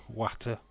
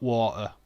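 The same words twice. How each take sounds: First: "Water" with a short flat a, watt-uh; Yorkshire pronunciation. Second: "water" with a long aw, waw-tuh; louder, say "water" as waw-tuh; standard pronunciation. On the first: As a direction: say "Water" to rhyme with batter. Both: Shown as a demonstration. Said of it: "Not water".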